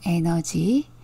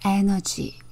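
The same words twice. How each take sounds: First: The syllables are said with even stress. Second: The first syllable carries strong stress. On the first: "우리말로는 에너지" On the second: "영어로는 에너지 그래요"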